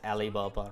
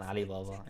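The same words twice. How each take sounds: First: It starts with a plain vowel, no throat sound. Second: It starts with a tight throat consonant sound.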